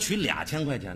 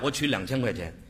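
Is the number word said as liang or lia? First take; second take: lia; liang. First: The number word is said as lia. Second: The number word is said as liang. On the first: The speaker calls it wrong. "有说取2000 块钱的吗？" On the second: The speaker calls it right. "你到银行取钱你得这么跟人说呀"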